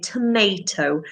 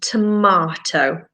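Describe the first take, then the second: First: It is said in an American accent. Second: It is said in a British accent.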